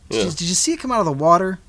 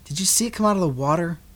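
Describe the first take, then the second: First: The question is asked in a doubtful, skeptical tone. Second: The question is asked in a plain, neutral tone. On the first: The asker doubts the story. "but I do" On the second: The question is simply read as written. "I don't know if he had that inflection when he asked that question"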